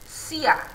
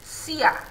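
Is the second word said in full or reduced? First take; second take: reduced; reduced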